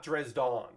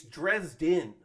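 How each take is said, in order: First: Dresden with the last syllable as "dawn"; the wrong Dresden, second syllable opened out to "dahn"; mistaken pronunciation. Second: Dresden with the last syllable as "din", said slowly; a slow, deliberate correction on Dresden, rhyming the end with "in"; correcting pronunciation. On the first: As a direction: say Dresden ending in an open "don". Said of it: "not Dresden". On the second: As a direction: stretch out Dresden, ending in a clear "din". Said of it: "the very first thing they say is". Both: Retold or imitated.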